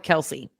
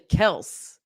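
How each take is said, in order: First: The name is said with two syllables. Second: The name is said with one syllable. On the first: The speaker calls it wrong. "everybody calls him Kelsey" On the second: The speaker calls it right. "which apparently is actually Kels"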